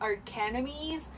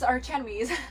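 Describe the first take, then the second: First: The 'ch' is pronounced as a 'k' sound. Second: The 'ch' is pronounced as a 'ch' sound. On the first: The speaker calls it wrong. "because like the C H can be pronounced as the K sound" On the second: The speaker calls it right. "so I guess it's Archenemies"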